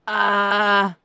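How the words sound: The sound is tight and strained.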